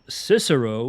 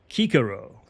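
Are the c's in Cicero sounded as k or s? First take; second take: s; k. First: The c's are sounded soft, like s. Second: The c's are sounded hard, like k. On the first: The speaker calls it wrong. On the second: The speaker calls it right.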